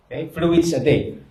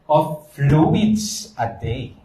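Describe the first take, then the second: First: Said in the usual way. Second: "of fluids a day" drawn out very slowly, rising on "fluids"; slow emphasis. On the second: Shown as a demonstration. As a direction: stretch out "of fluids a day", lifting on "fluids".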